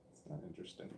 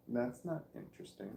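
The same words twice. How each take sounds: First: Whispered self-dismissal; whispered aside. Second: Said in the usual way. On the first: Real, not acted. Vlogger dismissing his own accent tangent in a whisper. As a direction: drop to a whisper, writing yourself off.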